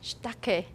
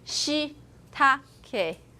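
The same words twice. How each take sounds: First: The vowel after sh is devoiced, sh lengthened. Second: The vowel after sh is clearly voiced. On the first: "I didn't pronounce that E sound. I simply lengthen my sh" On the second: "Usually you say shitake"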